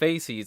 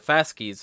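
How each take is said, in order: First: It is said the everyday English way. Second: It is said the classical Latin way. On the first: The speaker calls it wrong. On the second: The speaker calls it right.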